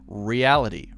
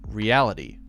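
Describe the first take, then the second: No difference in how they are said.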